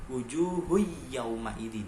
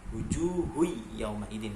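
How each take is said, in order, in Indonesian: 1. Bunyi n melebur ke konsonan setelahnya. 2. Bunyi n melebur ke konsonan setelahnya.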